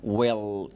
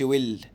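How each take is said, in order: First: ويل low, with a long dark L. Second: ويل ending on a light L; wrong light L. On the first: Teacher correcting pupils, dark-L ويل. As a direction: draw out the dark L closing ويل. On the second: Teacher showing pupils what not to say, light-L ويل. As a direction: mistaken ويل with the L kept light. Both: Shown as a demonstration. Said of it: "ما تقولش ويل".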